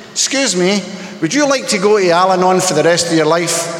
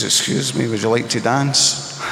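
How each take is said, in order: First: Said in the usual way. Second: Slightly lower, slow, smooth-talking Bond-style invite; a light hint of a suave Scottish charmer asking for a dance; Sean Connery voice. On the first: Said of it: "You know what I should have said?". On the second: Drunk young man asking the little blonde to dance, lightly voiced Sean Connery. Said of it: "in my best Sean Connery voice".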